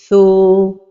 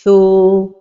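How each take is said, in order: First: The long vowel sounds heavy and emphatic. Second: The long vowel sounds heavy and emphatic.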